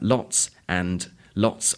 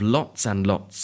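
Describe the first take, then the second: First: Words are said separately with the d sounded. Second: Lots runs into and with the d dropped. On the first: "If you were reading that sentence out loud" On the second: "the word lots flows directly onto and, and the D of the and isn't pronounced"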